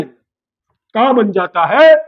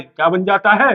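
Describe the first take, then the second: First: Slow, stretched question rising at the end; drawn-out prompting question. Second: Said in the usual way. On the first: Real, not acted. Teacher asks the class what the name becomes, drawn-out prompt. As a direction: draw it out so the class fills in.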